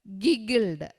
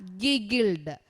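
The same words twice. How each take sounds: The two takes are said the same way.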